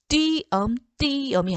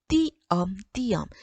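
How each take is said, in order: First: The first vowels are gliding diphthongs 'ui'. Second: The first vowels are plain 'ee' sounds. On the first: The speaker calls it wrong. "아니고" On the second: The speaker calls it right. "이로 발음한다"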